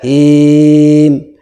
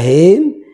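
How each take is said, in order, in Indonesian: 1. Vokalnya dibaca enam harakat. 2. Vokalnya dibaca dua harakat. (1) "bisa enam harokat" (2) "bisa dua harokat"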